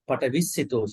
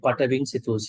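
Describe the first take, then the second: First: It has no nasal sound before 'sito'. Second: It has a nasal sound before 'sito'. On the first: "this is Burmese" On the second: "Sri Lankan tradition"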